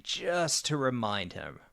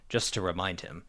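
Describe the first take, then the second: First: It is said slowly, with an expressive voice. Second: It is said flatly, with little variation. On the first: The speaker calls it right. "he'll slow down and say" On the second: The speaker calls it wrong. "rather than very flatly"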